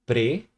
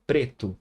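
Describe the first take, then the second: First: "Preto" as pre, long pause, to; split into syllables. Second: Said in the usual way. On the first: Shown as a demonstration. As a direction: say "Preto" one syllable at a time. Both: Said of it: "eu jamais vou separar aqui".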